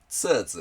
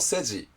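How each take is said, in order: First: It is read the Chinese way, 'tsuzu'. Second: It is read as Japanese romaji, 'seji'. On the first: "中国語だとツーズって読みます" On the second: "日本語のローマ字式に読むと"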